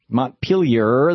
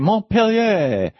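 First: The word ends with an audible R sound. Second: The word ends with no R sound. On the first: "Instead of saying Montpellier" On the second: "they say Montpellier. Well, where's the R? It went away"

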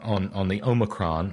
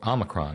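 First: The first vowel sounds like 'oh'. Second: The first vowel sounds like 'ah'. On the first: The speaker calls it wrong. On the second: The speaker calls it right.

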